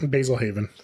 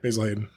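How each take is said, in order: First: The second word has a V sound in the middle. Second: The second word has a D sound in the middle. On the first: The speaker calls it wrong. "I call it Haven" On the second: The speaker calls it right. "purposely say Hayden"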